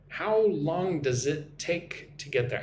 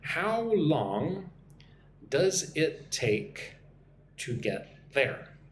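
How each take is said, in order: First: The sentence is spoken quickly with words run together. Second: The sentence is spoken slowly and clearly. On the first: "when I speak with my American accent quickly" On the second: "nice and slow"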